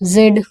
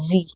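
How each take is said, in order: First: The letter is said as zed. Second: The letter is said as zee. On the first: The speaker calls it wrong. "जेड भी चल जाता है" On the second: The speaker calls it right. "इसका सही pronunciation क्या है?"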